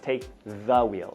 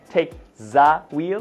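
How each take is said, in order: First: The word 'the' starts with a th sound. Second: The word 'the' starts with a z sound. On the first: The speaker calls it right. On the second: The speaker calls it wrong.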